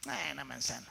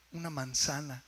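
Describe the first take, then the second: First: Low, soft, dismissive "eh"; imitating an unimpressed onlooker; mock indifference. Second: Said in the usual way. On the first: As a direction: shrug it off like nothing special. Shrugging off an everyday wonder.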